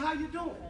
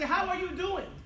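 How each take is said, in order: First: The word are is left out. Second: The word are is fully pronounced. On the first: "We just say, how you doing?" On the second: "We don't say, how are you doing?"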